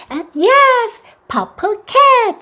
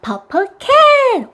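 First: Very slow, high, stretched praise; slow praising expansion. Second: High, very slow together-phrase; slow joint repeat. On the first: Mom expanding the child's answer, high and slow. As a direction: model the full phrase gently. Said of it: "앞에 purple 넣어주세요". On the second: Mom inviting the child to repeat, high and slow. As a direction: say it together slowly. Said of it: "다 말해보자". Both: Shown as a demonstration.

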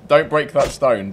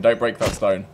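First: Slow, loud "don't break that stone" with a hard "don't"; emphatic warning. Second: Said in the usual way. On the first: Real, not acted. Telling the naked player off, slow firm warning. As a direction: warn him firmly.

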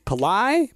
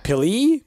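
First: Pili said as puh-LIE, long i at end; questioning Pili as puh-LIE; alternate pronunciation. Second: Pili said as PIL-ee, short i; questioning Pili with PIL-ee; unsure pronunciation. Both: Shown as a demonstration. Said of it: "or is it Pili".

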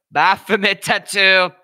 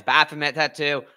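First: Slow, high, booming hype; loud excited repeat. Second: Said in the usual way. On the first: Real, not acted. Streamer hypes up the fighter's tattoo, loud and drawn out. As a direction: belt it out, stretching each word.

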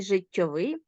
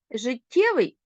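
First: Життєвий as життьовий, final -ВИЙ stressed; stress on the ending. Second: Життєвий with the middle ТТЄ stressed; stress on the suffix. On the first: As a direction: land on the last syllable: життьоВИЙ. (наголос на закінченні: життьоВИЙ) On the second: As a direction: lean on the middle syllable of життєвий. (наголос на суфіксі: житТЄвий) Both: Shown as a demonstration. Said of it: "розрізняємо слова залежно від наголосу".

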